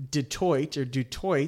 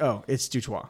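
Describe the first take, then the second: First: "Detroit" with the final T sounded, as spelt; wrong pronunciation. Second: "Dutoit" as doo-TWAH, silent final T; Cajun French pronunciation. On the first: Host admitting how he misread the guest's surname, mispronounced "Detroit". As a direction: say "Detroit" with a hard oy-T ending. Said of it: "in my head, thought you were". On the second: Host recalling learning the guest's married name, Cajun French "Dutoit" as doo-twah. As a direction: end "Dutoit" on an open "twah". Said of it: "I was like". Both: Shown as a demonstration.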